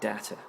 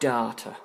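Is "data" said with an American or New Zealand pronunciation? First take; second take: American; New Zealand. First: It is said with an American pronunciation. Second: It is said with a New Zealand pronunciation. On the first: "The Americans say data" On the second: "in New Zealand they say data"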